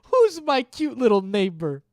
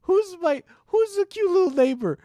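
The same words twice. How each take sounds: First: Put-on high, loud cooing baby voice; baby talk. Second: Very high squeaky cooing; squeaky baby talk. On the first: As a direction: coo it like talking to a puppy. Baby talk to pet-like viewer. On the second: Pretend. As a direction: squeal it like fussing over a puppy.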